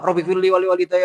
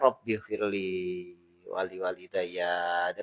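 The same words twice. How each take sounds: First: The prayer is recited quickly. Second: The prayer is recited slowly. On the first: The prayer is read as a formality. The speaker calls it wrong. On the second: The person is truly asking. The speaker calls it right.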